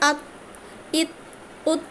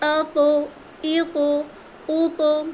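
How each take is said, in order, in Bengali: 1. শেষের ব্যঞ্জনটি ছাড়া ছাড়াই বন্ধ রাখা হয়। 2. শেষের ব্যঞ্জনটি ঝাঁকুনি দিয়ে ছাড়া হয়। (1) "এটা জজম দিয়ে পড়লে এভাবে হতো" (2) "আতো আওয়াজটা ছেড়ে দিই কত ইজি লাগছে পড়তে"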